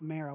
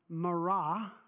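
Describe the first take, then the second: First: The name has an American English pronunciation. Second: The name has a Hebrew-style pronunciation. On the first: "my North Topeka self was going to go with Marah" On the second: "in ancient Hebrew might pronounce it as Marah"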